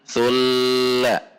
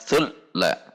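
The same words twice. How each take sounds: First: The doubled l is held for a long time. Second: The doubled l is cut off abruptly. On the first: "tidak boleh ditahan"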